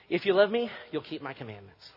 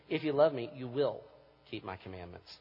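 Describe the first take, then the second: First: It is read quickly, like a contract. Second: It is read slowly and deliberately.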